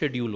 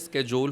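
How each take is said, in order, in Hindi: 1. यह ब्रिटिश उच्चारण में बोला जाता है। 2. यह अमेरिकी उच्चारण में बोला जाता है। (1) "ब्रिटिश इंग्लिश में वो शेड्यूल होता है" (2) "अमेरिकन में स्केजोल होता है"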